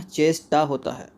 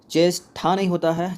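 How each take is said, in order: First: चेष्टा with unaspirated "ṭa", slow and falling; correct form demo. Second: चेष्टा with aspirated "ṭha", slow and rising; wrong form demo. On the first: Teacher giving the right spelling, slow unaspirated "cheshṭa". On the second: Teacher rejecting a wrong spelling, slow aspirated "cheshṭha". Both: Shown as a demonstration.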